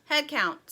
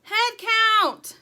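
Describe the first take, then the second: First: Mildly raised, weary call; a touch of breathlessness after the ordeal; frazzled, breathless. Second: High, loud, drawn-out command; yelling. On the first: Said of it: "frazzled and out of breath". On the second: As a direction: bellow the order to everyone. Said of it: "Dirt and Sugar yelled". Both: A narrator's reading.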